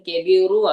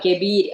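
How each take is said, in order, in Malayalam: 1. ഈ വാക്ക് ഹ്രസ്വമായ u സ്വരത്തിലാണ് അവസാനിക്കുന്നത്. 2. ഈ വാക്ക് ശുദ്ധമായ r ശബ്ദത്തിലാണ് അവസാനിക്കുന്നത്. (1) "വമ്മുള്ള റോ അല്ലേ" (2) "നമ്മൾ നിർത്തുമ്പോ ദമ്മു മാറി എന്ത് വരും, സുക്കൂന് വരും"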